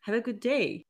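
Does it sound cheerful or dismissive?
cheerful. It sounds warm and cheerful.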